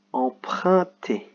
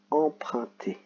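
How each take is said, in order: First: "Emprunter" slowly, syllable by syllable; syllable reading. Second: Said in the usual way. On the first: Shown as a demonstration. Teacher slowly sounding out "Emprunter". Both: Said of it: "U N fait le son un".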